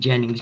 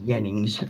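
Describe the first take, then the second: First: It begins with an English J sound. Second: It begins with a Y sound. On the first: "my name Jennings" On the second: "becomes Jennings"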